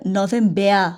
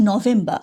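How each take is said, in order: First: "নভেম্বর" ending in "-bea" instead of "-ba"; other native "November" variant. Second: "নভেম্বর" the German way, last syllable "ba"; German "November" with "-ba". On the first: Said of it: "ওরা দেখবেন অনেক সময় বলবে". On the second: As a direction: say "নভেম্বর" as "no-VEM-ba". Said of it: "আমি বলছি". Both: Shown as a demonstration.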